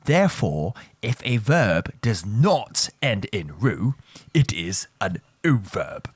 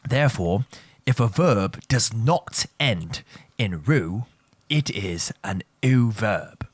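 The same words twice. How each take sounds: First: Slow, stressing NOT; slow repeat. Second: Slow and deliberate, word by word; slow repeat. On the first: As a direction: drive the rule home a second time. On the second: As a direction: spell the rule out slowly for the class. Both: Shown as a demonstration. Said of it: "let me repeat that for you one more time".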